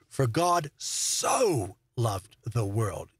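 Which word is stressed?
so. The stress is on the word so.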